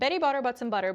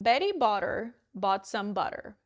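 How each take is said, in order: First: It is spoken very fast. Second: It is spoken slowly. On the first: "now really fast" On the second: "once slowly"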